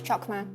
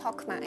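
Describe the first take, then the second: First: The word begins with a hard k-like sound. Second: The word begins with a soft h sound. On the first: The speaker calls it wrong. "it's not pronounced as Chokma" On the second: The speaker calls it right. "pronounced with a silent C"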